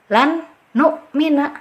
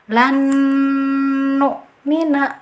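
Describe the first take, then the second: First: The first n is pronounced clearly and separately. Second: The n merges with a nasal held two counts. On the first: The speaker calls it wrong. "itu pembacaan ijhar jelas" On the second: The speaker calls it right. "cara baca yang betul adalah lan nu'mina"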